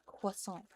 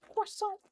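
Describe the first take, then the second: First: Said in the usual way. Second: CROISSANT squealed very high in mock French; silly croissant. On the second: Shown as a demonstration. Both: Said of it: "the silly way of just saying".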